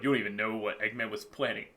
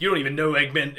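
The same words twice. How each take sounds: First: Lightly voiced villain, lower and softer; quick, low, hushed hint of menace; dark sinister voice. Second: Said in the usual way. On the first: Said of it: "it was a dark, sinister voice going". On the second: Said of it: "sinister voice going".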